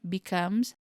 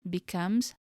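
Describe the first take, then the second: No difference in how they are said.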